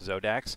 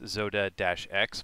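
First: The name ends in a single blended syllable 'dax'. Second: The name ends with the separate letter name 'ex'. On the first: "but we're pronouncing it Zodax" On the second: "That's Zoda-X"

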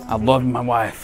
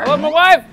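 First: It is said at a normal, quieter volume. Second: It is said louder so people hear.

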